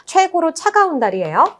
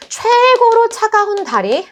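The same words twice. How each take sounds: First: Said in the usual way. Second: 최고로 drawn out high and slow; stretched emphasis. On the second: Shown as a demonstration. Teacher drilling the term for students, stretched emphasis on 최고로. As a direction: stretch the first syllable of 최고로, pitched way up.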